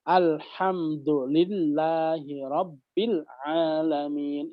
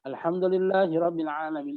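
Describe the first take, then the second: First: It is recited slowly, letter by letter. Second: It is recited fast.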